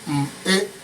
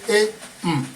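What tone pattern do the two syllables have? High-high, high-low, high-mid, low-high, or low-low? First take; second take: low-high; high-low. First: A low tone followed by a high tone. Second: A high tone followed by a low tone. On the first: "that is low high" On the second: "that is high low"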